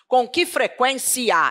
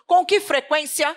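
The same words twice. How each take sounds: First: The final i and a are split into two syllables. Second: The final i and a glide into one syllable. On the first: The speaker calls it wrong. "eu não digo assim" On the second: The speaker calls it right. "Eu emito um ditongo, eu digo assim"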